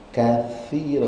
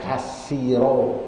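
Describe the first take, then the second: First: The middle consonant is a soft 'th' sound. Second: The middle consonant is a plain 's' sound. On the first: The speaker calls it right. "sa bukan sin" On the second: The speaker calls it wrong. "bukan kasiro"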